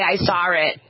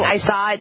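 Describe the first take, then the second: First: Saw is said with an added r sound. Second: Saw is said with no added r sound. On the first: "they add an R" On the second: "Instead of saying I saw it"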